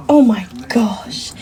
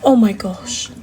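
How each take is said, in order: First: Whisper. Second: Said in the usual way. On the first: Real, not acted. Gushing over her dog.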